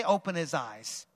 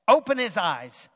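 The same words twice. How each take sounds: First: Softer, lower repeat for the congregation; quieter prompt. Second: Said in the usual way. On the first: Shown as a demonstration. Preacher prompting the congregation to repeat, softer. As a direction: say it gently back.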